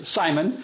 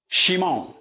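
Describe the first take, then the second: First: The name begins with an s sound. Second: The name begins with an sh sound. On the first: The speaker calls it wrong. "His name really should not be pronounced as Simon" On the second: The speaker calls it right. "It should be called Shimon"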